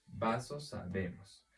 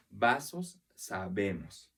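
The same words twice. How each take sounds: First: Said in the usual way. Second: "Vasos" alto y fuerte, "sabemos" desciende; sílabas tónicas marcadas. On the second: Shown as a demonstration. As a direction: marca VA en "Vasos" y BE en "sabemos", para que se escuche. (acento tónico marcado en "Vasos, sabemos")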